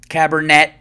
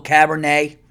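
First: "Cabernet" ending in a hard, sounded t; "Cabernet" with the final t pronounced; mock mispronunciation. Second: Said in the usual way. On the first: Shown as a demonstration. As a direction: say "Cabernet" as cab-er-NET, louder. Repeats it with a sounded t.

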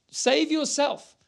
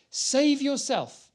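First: Slow, higher sneering taunt; lightly mocking ruler's jibe; scoffing rulers. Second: Slow, higher mock plea; a hint of the jeering criminal; railing criminal, read. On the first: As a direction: sneer it out slowly. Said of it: "The rulers are scoffing at him". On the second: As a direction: drag out the taunt. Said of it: "railed at him".

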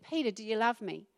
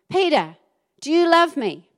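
First: Jesus gently restoring Peter, quiet and tender; gentle question. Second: Louder, higher, insistent asking; Jesus asking Peter pointedly, loud and insistent; pressing question. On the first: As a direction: ask softly, as if restoring a friend. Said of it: "he restored him". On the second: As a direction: press the question a third time. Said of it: "Peter was a little bit upset by this time". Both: Acted.

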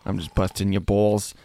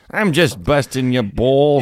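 First: Said in the usual way. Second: Playful jab with more volume; teasing, louder. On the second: Acted.

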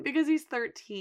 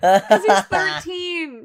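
First: Said in the usual way. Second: Louder, slow, stressed he's; laughing emphatic delivery; emphatic punchline. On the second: Real, not acted. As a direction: land the joke hard.

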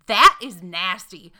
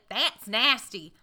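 First: Slow, loud Greensboro North Carolina "That is nasty"; imitating the disgusted counter girl in a Greensboro accent. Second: Slow, drawn-out Greensboro North Carolina "That's nasty"; Greensboro accent. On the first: Retelling the counter girl's reaction, slow and loud Greensboro accent. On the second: Retold or imitated. Mocking the counter girl, lightly voiced Greensboro accent. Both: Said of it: "That's the accent of Greensboro".

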